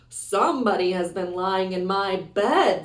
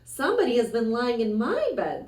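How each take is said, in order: First: It is said in a rough, gruff voice. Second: It is said in a medium, ordinary voice.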